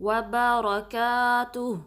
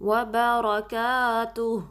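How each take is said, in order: No difference in how they are said.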